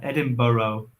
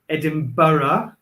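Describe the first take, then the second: First: It is said in an American accent. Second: It is said in a standard British accent. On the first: "I'll try that" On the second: "which is British English"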